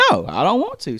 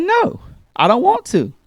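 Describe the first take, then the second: First: Said in the usual way. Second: Put-on whiny child refusal. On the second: Daughter refuses the chore.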